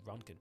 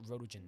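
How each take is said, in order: First: The word sounds like 'Ronkin'. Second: The word sounds like 'Rotogen'. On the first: The speaker calls it right. "It's actually Ronkin. That's how you pronounce it" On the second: The speaker calls it wrong. "it's not Rotogen"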